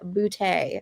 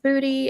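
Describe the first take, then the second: First: The name ends in an ay vowel. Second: The name ends in an ee vowel. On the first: The speaker calls it right. "He pronounces it Boutte" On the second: The speaker calls it wrong. "it's not pronounced booty"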